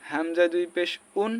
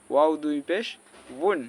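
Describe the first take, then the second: First: উন as a bare vowel with no w; mistaken hamza. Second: উন begun with a rounded w, "wun"; correct waw. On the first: Teacher showing a wrong form, উন with no w glide. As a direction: open straight onto u in উন. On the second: Teacher giving the right form, উন with w glide. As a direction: round the lips into a w before উন. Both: Shown as a demonstration. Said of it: "এটাও হবে না".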